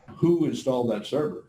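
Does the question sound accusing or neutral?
neutral. It is asked as a plain, neutral question. The speaker simply wants to know who did it.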